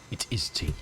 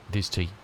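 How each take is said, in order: First: Breathy stage whisper. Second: Said in the usual way. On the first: Shown as a demonstration. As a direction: whisper it like a secret. Repeating the tea answer, hushed.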